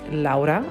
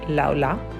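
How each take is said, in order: First: The second consonant is an R sound. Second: The second consonant is an L sound. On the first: "her name is Laura" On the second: "I would replace it with the L sound"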